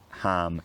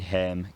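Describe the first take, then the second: First: The vowel is an open ah sound. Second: The vowel is a front eh sound. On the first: "with an ah sound" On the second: "They could be"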